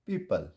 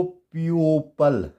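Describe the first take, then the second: First: पीपल as pee-pal, no O; silent O. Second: प्यूपल as pee-yo-pal, O voiced; wrong O sounded. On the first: Teacher gives the correct reading, silent O. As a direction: say पीपल in two syllables, falling at the end. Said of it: "क्या बन जाएगा". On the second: Teacher showing how not to read it, O sounded. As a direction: misread प्यूपल with an extra o sound. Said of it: "नहीं पढ़ेंगे". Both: Shown as a demonstration.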